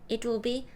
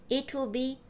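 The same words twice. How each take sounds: The two takes are said the same way.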